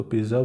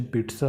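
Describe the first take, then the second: First: पिज़्ज़ा said with a buzzing z, "PIZ-za"; पिज़्ज़ा as "pizza" with a voiced z sound; Indian pronunciation. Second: पिज़्ज़ा said as "PEET-sa", with a ts; पिज़्ज़ा with a crisp ts sound instead of z; standard pronunciation. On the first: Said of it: "India में तो इसको पिज़्ज़ा बोलते हैं". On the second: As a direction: put a t before the s in पिज़्ज़ा: "peet-sa". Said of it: "वैसे इसका pronunciation पिज़्ज़ा होता है". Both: Shown as a demonstration.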